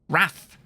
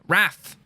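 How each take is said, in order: First: The vowel is an 'a' sound. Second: The same.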